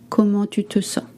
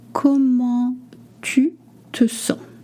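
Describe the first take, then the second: First: The phrase is said at natural fast speed. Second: The phrase is said slowly and carefully.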